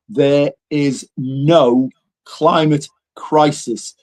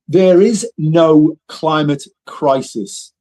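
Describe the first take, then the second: First: It is said slowly. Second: It is said at normal speed.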